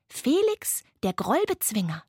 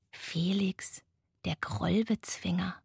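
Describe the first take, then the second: First: High on the name, then dropping for the title; proud proclamation. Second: Soft, sleepy murmur. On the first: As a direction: present a hero by name and title. Laila proudly presents Felix's figure. (feierlich und stolz verkündet) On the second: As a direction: murmur it to yourself at bedtime. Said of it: "murmelte er". (leise vor sich hin gemurmelt) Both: A narrator's reading.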